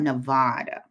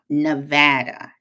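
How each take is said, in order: First: The stressed middle vowel sounds like 'father'. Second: The stressed middle vowel sounds like 'cat'. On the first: The speaker calls it wrong. "They told me I say it wrong" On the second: The speaker calls it right. "Nevada, not Nevada"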